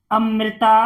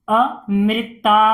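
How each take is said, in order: First: Said in the usual way. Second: "Amrita" with pauses between its parts; syllable by syllable. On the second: Shown as a demonstration. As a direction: break "Amrita" up part by part. Teacher sounds out, then blends. ("Amrita" को तोड़कर पढ़ना)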